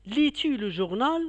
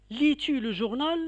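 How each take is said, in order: First: "Lis-tu le journal?" with journal lifted up; rising question. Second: "Lis-tu le journal?" pitched higher and rising to journal; rising question. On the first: Teacher repeating for pupils, rising tune. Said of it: "Je répète". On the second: Teacher showing inversion question, rising tune. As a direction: ask it with a climb at the end. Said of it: "est montante". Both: Shown as a demonstration.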